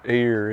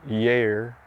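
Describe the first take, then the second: First: The word has its standard pronunciation. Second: The word has the local mountain pronunciation. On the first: "instead of your ear" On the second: "it's yer"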